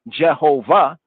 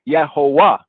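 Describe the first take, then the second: First: The word begins with an English J sound. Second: The word begins with a Y sound. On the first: This is the usual English reading. "the so-called Jehovah" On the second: This is how the original German translators would read it. "in German, the J is not pronounced as a J sound. It's pronounced as a Y sound"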